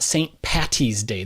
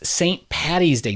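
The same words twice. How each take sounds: First: The name is said with a T sound. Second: The name is said with a D sound. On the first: The name is short for Patricia. The speaker calls it wrong. "not T" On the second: The name is short for Patrick. The speaker calls it right. "It's D"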